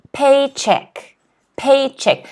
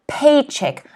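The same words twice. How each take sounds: First: "paycheck" said PAY-check, higher on PAY; teacher's model PAYcheck; stress on first syllable. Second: "Paycheck" with the weight on PAY; PAYcheck, first syllable stressed. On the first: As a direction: lean on PAY, drop on check. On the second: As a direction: hit PAY, let "check" fall away. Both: Shown as a demonstration. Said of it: "Notice that the stress is in the first syllable".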